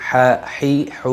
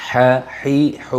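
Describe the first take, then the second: The two takes are said the same way.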